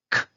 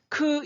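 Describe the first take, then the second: First: 크 as a bare puff of air, no vowel; whispered K burst for 크; voiceless K. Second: 크 said with a voiced vowel after the K; 크 with an audible "eu" vowel; wrong voiced K. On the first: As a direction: release 크 with breath only. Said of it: "이렇게 소리만 나가게 되고요". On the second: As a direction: let 크 ring out as a full syllable. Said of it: "이렇게 하시면 안 되죠". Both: Shown as a demonstration.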